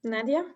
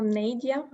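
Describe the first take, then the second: First: "Nadia" with a short open a, as NAD-ee-a; first pronunciation try. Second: "Nadia" with a long ay, as NAY-dee-a; alternative pronunciation. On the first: Host calling on Nadia, unsure of the name, "Nadia" as NAD-ee-a. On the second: Host correcting herself on a participant's name, "Nadia" as NAY-dee-a. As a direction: say "Nadia" with the first syllable rhyming with "day". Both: Real, not acted. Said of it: "I'm sorry for the mispronunciation".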